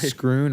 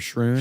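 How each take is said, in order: First: The name begins with an sk sound. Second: The name begins with an sh sound. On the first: "It's definitely Scroon" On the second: "Scroon or Shroon"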